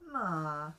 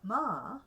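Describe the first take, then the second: First: The pitch stays low on the syllable. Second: The pitch rises and then falls. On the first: "You can have a low tone" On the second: "rising and falling"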